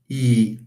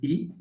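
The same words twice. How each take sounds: First: The vowel is long. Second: The vowel is short. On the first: "two dots here, it means that it's a long vowel" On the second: "This is just E"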